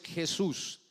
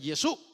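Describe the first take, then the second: First: The final s sound is clearly pronounced. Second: The final s sound is dropped. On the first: This is the standard Spanish form. The speaker calls it right. "en el español es Jesús" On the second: The speaker has an accent that drops final s sounds. The speaker calls it wrong. "se tragan las eses al final"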